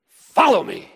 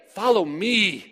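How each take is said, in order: First: "Follow me." pushed out louder, punched on "Follow"; louder reading. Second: Said in the usual way. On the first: Shown as a demonstration. Preacher tries another reading of Jesus' call, louder. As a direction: try "Follow me." again with more force. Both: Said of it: "It doesn't matter how you say it".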